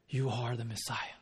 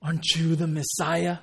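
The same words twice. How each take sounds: First: Soft, low, reverent declaration; hushed, lowered voice, no question in it; humble statement. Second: Pointed question, pushed at the listener; sceptical, demanding question; demanding challenge. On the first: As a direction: state it quietly as settled belief. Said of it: "It wasn't with the question mark". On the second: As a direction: challenge him as if owed proof. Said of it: "the attitude is completely different". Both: Shown as a demonstration.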